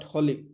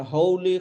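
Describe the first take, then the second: First: Holy with a short 'o', holly; "holy" without the oh glide; mispronounced holy. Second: Holy with a long 'oh', HOH-lee; "Holy" stressed and long at the start; correct Holy. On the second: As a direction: say Holy with a gliding first vowel. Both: Shown as a demonstration. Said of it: "not holy".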